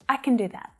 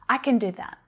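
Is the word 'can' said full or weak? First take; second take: weak; weak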